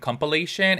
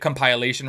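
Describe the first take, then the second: First: The middle syllable does not sound like pile. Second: The middle syllable sounds like the word pile.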